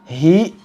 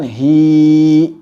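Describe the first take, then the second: First: The vowel ends in an abrupt glottal stop. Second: The vowel is stretched out far too long. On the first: "menambah hamzah"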